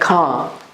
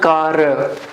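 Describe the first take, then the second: First: The final r sound is very slight. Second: The final r sound is strong and stressed. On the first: The speaker calls it right. "pronounce it very slightly, like car" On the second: The speaker calls it wrong. "not car. You're not supposed to stress on the last letter of this word"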